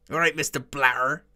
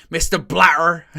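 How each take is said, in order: First: Lightly voiced Bristolian accent, "All right, Mister Blatter" with a rising end; a light Bristolian imitation, half laughing. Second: Imitating a Bristolian accent, "Mister Blatter" a little higher and louder; mock an angry Bristolian manager, "Mister Blatter" pushed out. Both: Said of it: "in his proper Bristolian accent".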